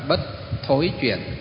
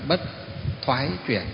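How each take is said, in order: First: The middle word has the Southern vowel 'thối'. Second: The middle word has the Northern vowel 'thoái'. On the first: "miền Nam đọc là" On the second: "miền Bắc chúng ta đọc là"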